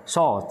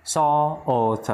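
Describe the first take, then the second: First: Said in the usual way. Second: "Salt" stretched slowly on the o, then the t; drawn-out O. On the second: Shown as a demonstration. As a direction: sound out "Salt" as so-o-t for learners. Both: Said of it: "Vẫn bật chữ O nhẹ thôi".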